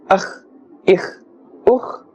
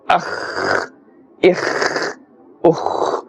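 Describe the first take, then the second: First: The final consonant sounds are kept short and normal. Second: The final consonant sounds are stretched out long. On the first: The speaker calls it right. "in the normal ma'aruf, the common manner" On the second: The speaker calls it wrong. "don't stretch the sound of these letters too much. For example"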